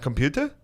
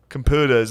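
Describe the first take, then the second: First: The word is pronounced clearly with a normal r. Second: The word is pronounced with a distorted r. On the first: The speaker calls it right. "he was saying it perfect" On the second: The speaker calls it wrong. "I think you're saying it wrong"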